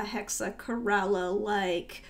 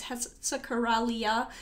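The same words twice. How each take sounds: First: "Hexacoralla" without the -ia ending; mispronounced Hexacoralla. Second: "Hexacorallia" ending in -lia, not -la; corrected pronunciation. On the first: Real, not acted. Painter describing her dream print idea, mispronounced Hexacoralla. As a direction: say "Hexacoralla" ending in plain -la, no i sound. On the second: Shown as a demonstration. Painter owning up to a long-standing slip, corrected Hexacorallia. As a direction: say "Hexacorallia" with an i sound before the final a. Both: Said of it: "my pronunciation is wrong".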